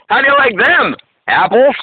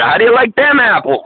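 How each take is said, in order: First: A break splits the line before the last word. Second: The line runs smoothly to the end without a break. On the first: "put punctuation in the wrong spot" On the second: "Like the great Good Will Hunting scene"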